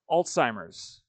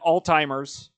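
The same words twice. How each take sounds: First: It is said with no T sound after L. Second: It is said with a T sound after L. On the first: The speaker calls it right. "there's no fucking T" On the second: The speaker calls it wrong.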